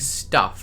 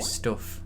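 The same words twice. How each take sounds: First: The vowel in 'stuff' is not Midlands-sounding. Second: The vowel in 'stuff' sounds like a Midlands accent. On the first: "instead of saying stuff" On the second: "I'd say stuff"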